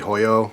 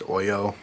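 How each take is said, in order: First: The word begins with an audible h sound. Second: The word begins directly with a vowel sound. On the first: This is the common everyday way people say it. "a lot of people say Hoyo" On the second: This is the official way to say it. "I believe it's pronounced Oyo"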